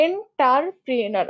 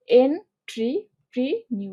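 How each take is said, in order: First: "এন্টারপ্রেনার" slowly, with "tar" and a final "nar"; common mispronunciation. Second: "এন্ট্রিপ্রেনিউর" very slowly, en, tri, pre, niur apart; long gaps between syllables, ending "এন্ট্রিপ্রেনিউর" on "niur"; spelling pronunciation. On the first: Teacher showing how many people say it, common mispronunciation. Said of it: "আমরা অনেকে এন্টারপ্রেনার বলে থাকি". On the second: Teacher stressing niur rather than nar, in spelling pronunciation. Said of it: "নার না নিউর". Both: Shown as a demonstration.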